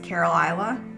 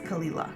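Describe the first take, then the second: First: The name sounds like 'Carol Isla'. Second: The name sounds like 'Kalila'. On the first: The speaker calls it wrong. "they think it says Carol Isla because of how it's spelled" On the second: The speaker calls it right. "but it's pronounced Kalila"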